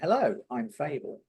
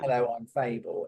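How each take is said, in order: First: There is a pause after hello. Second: There is no pause after hello.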